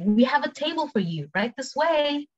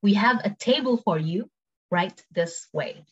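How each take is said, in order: First: High-pitched, flowing service line; higher, quicker model phrase; quick take. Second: Measured words, slowing at the end; careful, spaced-out model phrase; slow take. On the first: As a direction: say it as one conversational run. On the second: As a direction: break it up slowly for learners. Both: Shown as a demonstration. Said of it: "cepet sama pelan".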